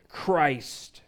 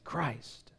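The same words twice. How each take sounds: First: It is said in a frustrated tone. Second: It is muttered quietly under the breath.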